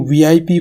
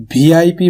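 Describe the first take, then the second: First: Said in the usual way. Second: "وی آئی پی" with aspirated bh for v; VIP mispronounced. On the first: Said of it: "بولتے ہوئے سنا ہے". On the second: Shown as a demonstration. Teacher quoting what students may have heard, "وی آئی پی" mispronounced with bh. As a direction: begin "وی آئی پی" as bhee, not vee. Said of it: "سننے میں بہت ہی برا لگتا ہے".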